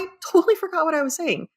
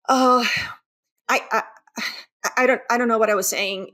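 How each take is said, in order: First: It sounds relaxed and smooth, without stammering. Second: It sounds anxious and halting, with stammering.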